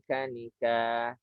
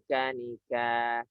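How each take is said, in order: The two takes are said the same way.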